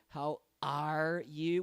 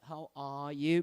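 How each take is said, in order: First: It is said in an American accent. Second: It is said in a British accent.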